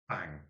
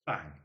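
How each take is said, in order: First: Second short bang, falling off; nail gun noise. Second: Quick spoken bang for a nail gun; nail gun noise. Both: Retold or imitated. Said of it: "The impression of a nail gun going off".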